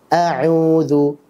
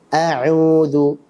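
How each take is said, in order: No difference in how they are said.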